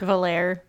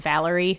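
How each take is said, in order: First: The name ends without an ee sound. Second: The name ends with an ee sound. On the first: The speaker calls it right. "Just without the I-E at the end" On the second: The speaker calls it wrong. "I was pronouncing it Valerie"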